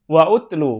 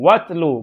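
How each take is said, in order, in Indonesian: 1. Vokal u yang terpisah dilafalkan setelah wa. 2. Wa langsung masuk ke tlu, tanpa vokal di antaranya. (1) "bukan wa utlu" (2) "Watlu, bukan wa utlu"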